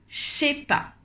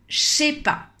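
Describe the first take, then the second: First: Said very fast, the words squeezed together. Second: Said very fast, the words squeezed together.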